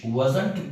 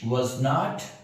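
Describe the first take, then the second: First: It is said quickly as one contracted word. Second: Two separate full words are said.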